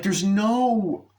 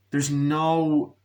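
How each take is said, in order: First: High, long-stretched "no"; exasperated stress. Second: Said in the usual way. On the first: Real, not acted. Critic fed up with the film, exasperated stretched "no". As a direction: lean hard on "no", drawing it out high.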